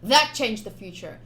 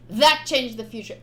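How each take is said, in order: Both takes have the same delivery.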